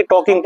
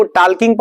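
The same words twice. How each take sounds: First: टॉकिंग said as "taw-king", no L sound; silent L. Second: टॉकिंग said as "taal-king", L sounded; L pronounced. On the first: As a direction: drop the L in टॉकिंग: "tawking". (टॉकिंग में L silent, "टॉकिंग") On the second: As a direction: sound the L in टॉकिंग, like "talk-ing" read by its spelling. (टॉकिंग में L का उच्चारण करते हुए, "टाल्किंग") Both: Shown as a demonstration. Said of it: "L will be silent in this word".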